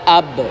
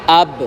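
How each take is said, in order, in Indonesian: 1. b terakhir memantul ringan ke arah a. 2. b terakhir memantul ringan ke arah a.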